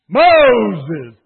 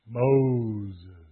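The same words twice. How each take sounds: First: The name is called out loudly with force. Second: The name is said calmly, without force.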